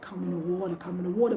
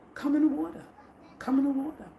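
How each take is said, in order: First: It is said in a deeper voice. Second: It is said in a normal voice.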